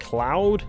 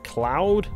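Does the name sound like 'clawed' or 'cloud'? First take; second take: cloud; cloud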